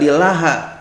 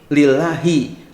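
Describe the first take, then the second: First: The word ends with an a vowel. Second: The word ends with an i vowel. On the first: The speaker calls it wrong. "enggak lillaha" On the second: The speaker calls it right. "tapi lillahi"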